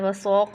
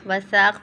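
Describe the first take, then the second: First: The consonant is heavy, with a thickened sound. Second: The consonant is light, without a thickened sound. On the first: The speaker calls it wrong. "वसौक नहीं पढ़ना है" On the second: The speaker calls it right. "वसाक पढ़ना है"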